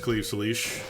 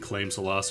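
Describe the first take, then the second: First: The first word ends with a v sound. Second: The first word ends with an m sound. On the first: The speaker calls it right. "is pronounced Cleave Salish" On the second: The speaker calls it wrong. "I was just saying Claim Salas or, or some nonsense like that"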